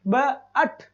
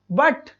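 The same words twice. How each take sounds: First: "ब", pause, "अट": the word split in two; teacher separating "ब" from short-vowel "अट"; sounded out. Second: Said in the usual way. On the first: Shown as a demonstration. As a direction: break it into "ब" and "अट" for a learner. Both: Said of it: "ए की sound आ रही है".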